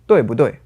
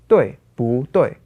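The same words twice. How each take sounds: First: The syllable 不 is light and toneless, said quickly. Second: The syllable 不 keeps a full tone.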